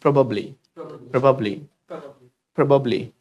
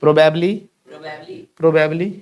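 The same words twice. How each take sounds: First: PROBABLY as "pruh-bub-lee", falling; correct bublee ending. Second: PROBABLY as "pro-bab-lee", rising; wrong bablee ending. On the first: Teacher telling class to repeat, light o. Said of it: "बबली है". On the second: Teacher testing class with the wrong form, "bablee" ending. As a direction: end PROBABLY on a questioning "bablee". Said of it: "बैबली नहीं है". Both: Shown as a demonstration.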